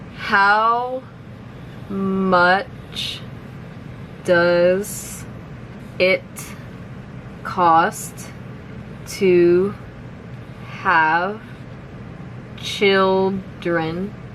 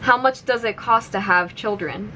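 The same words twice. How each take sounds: First: The sentence is spoken very slowly. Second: The sentence is spoken at normal speed. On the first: "I'll say it slowly first" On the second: "one more time at normal speed"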